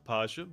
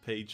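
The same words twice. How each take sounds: First: The word is said with a German pronunciation. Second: The word is said with an English pronunciation. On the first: "in Germany we, we would say Page" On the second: "I guess you pronounce it page in English"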